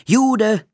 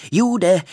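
First: "Jude!" yelled even higher and loud; shrill taunting repeat of "Jude!"; climaxing jeer; louder jeering shout. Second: "Jude" called out high and loud; taunting yell of "Jude"; kids' jeering call; jeering shout. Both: A narrator's reading. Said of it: "mit dem Rufe".

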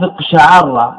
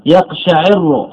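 First: اقشعر slowly as iq-sha-'AR-ra; fatha on the ayn. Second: يقشعر slowly as yaq-sha-'IR-ru; kasra on the ayn. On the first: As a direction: open the ayn of اقشعر with a and double the r. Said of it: "العين مفتوحة". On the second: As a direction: put an i after the ayn of يقشعر and double the r. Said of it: "العين مكسورة". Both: Shown as a demonstration.

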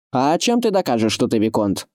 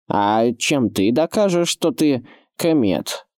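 First: High challenge falling to usual pitch; distrustful. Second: Slow, drawn-out indignant retort; exasperated slow counter-challenge, rising in pitch. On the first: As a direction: question it with open doubt. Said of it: "недоверчиво спросил кмет". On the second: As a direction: throw the question back with heavy emphasis. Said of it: "возмутился Локвуд". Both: A narrator's reading.

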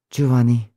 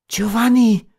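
First: Calm. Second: High cry of his name; called out. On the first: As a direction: say his name evenly, without outcry. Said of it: "sagte Beatrice ruhig". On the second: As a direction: cry out to him, pitch leaping. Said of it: "rief Beatrice". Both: A narrator's reading.

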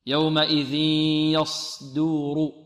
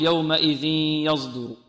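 First: يومئذ يصدر recited slowly with a pure hissed S; correct heavy S. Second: يومئذ يصدر recited with a Z for the S; wrong Z colouring. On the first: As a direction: hold a voiceless emphatic S in يصدر. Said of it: "أو يأتي برائحة الزاي". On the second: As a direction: chant يومئذ يصدر, wrongly buzzing it as yazduru. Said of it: "وهذا خطأ". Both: Shown as a demonstration.

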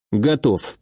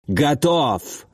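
First: Said in the usual way. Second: Short rough battle-ready bark; barked reply. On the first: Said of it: "повторил Алекс". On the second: A narrator's reading. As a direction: bark it out gruffly without shouting. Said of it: "рявкнул Гарри".

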